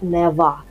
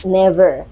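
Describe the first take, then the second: First: Never in a British accent, final R dropped to "neva". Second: Never in an American accent with a clear R. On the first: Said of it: "Kalau British itu kayak never". (never aksen British, R samar) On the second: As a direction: say never the American way, sounding the final R. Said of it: "Kalau American itu kayak never". (never aksen Amerika, R jelas) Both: Shown as a demonstration.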